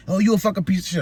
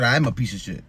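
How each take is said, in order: First: Mocking her insult. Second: Said in the usual way. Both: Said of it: "I just say it right back to her".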